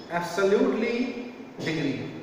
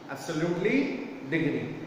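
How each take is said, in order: Both takes have the same delivery.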